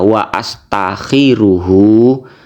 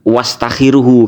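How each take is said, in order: First: The vowel after 'wa' starts with a glottal catch. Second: The 'wa' runs straight into the following consonant. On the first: The speaker calls it right. "Mestinya ya jenengan baca wa astakhiruhu" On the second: The speaker calls it wrong. "bukan wastakhiruhu, karena bukan hamzah wasol"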